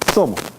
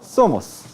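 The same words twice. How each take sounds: First: The final s is dropped or breathy. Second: The final s is fully pronounced. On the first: "consonantismo débil" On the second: "Eso es consonantismo fuerte"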